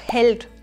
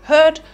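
First: The l sound is pronounced as a consonant. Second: The l sound is turned into a vowel.

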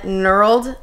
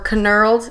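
First: The initial k is silent. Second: The initial k is sounded.

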